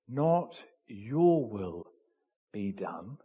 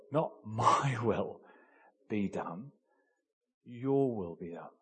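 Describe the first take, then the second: First: Said in the usual way. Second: Corrected quote. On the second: Shown as a demonstration.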